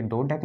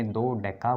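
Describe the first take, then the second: First: Said in the usual way. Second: दो डेका with the final a sounded slowly; correct pronunciation. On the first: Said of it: "दो डेक नहीं बोलेंगे". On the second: Shown as a demonstration. Teacher drills students on दो डेका, slowly. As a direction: stretch it out as दो डेका, ending on a. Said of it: "दो डेका बोलेंगे".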